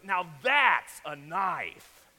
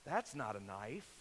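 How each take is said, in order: First: Loud, slow punch on THAT'S; Crocodile Dundee. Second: Low, soft, understated movie-hero line; Crocodile Dundee. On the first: Dundee pulls out his huge bushwhacker, loud and slow. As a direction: draw it out big and loud, no accent attempted. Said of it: "He goes". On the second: Dundee calmly answers muggers with a switchblade, low and soft. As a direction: say it low and unimpressed, no accent attempted. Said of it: "he looks at him and says". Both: Acted.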